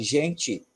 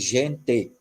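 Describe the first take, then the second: First: The final vowel sounds like 'ee', Ceará style. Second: The final vowel is a closed 'e', southern style.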